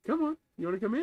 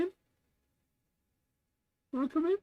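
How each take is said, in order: First: Talking to a cat. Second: Very high, rising pet-talk voice; talking to a cat. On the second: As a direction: coax the kitty sweetly. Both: Real, not acted. Coaxing cat into box.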